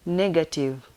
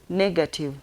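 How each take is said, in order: Both takes have the same delivery.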